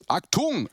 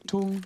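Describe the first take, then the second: First: It is said harshly and sharply. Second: It is said softly and sweetly.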